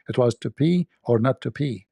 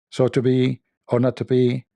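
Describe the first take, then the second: First: "pee" said with a clear p sound in place of "be"; pee pun. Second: Said in the usual way. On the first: Shown as a demonstration. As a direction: land "to pee or not to pee" with a crisp p on each pee. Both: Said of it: "It was not to be".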